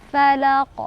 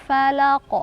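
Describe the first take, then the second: No difference in how they are said.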